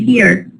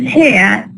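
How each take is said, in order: First: The final R sound is pronounced. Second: The final R sound is dropped. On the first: "with the R" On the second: "without the R at all"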